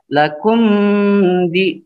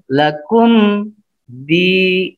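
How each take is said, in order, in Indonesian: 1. Bunyi m menyatu dengan bunyi yang mengikutinya. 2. Bunyi m ditutup dengan jelas. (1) "Tidak boleh dibaca lakum di" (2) "dibacanya dimatikan lakum di"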